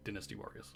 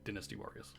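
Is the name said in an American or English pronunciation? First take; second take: English; English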